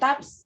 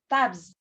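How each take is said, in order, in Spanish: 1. El sonido final es una s sorda, silbante. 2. El sonido final es una z sonora, zumbante. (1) "no vamos a decir tabs" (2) "porque la B es sonora"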